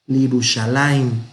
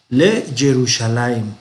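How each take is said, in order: First: It starts with li, merged into one word. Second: It starts with le, then a separate ye sound. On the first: The speaker calls it right. "tenemos Lirushalayim" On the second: The speaker calls it wrong. "no se pronuncia le Jerusalén"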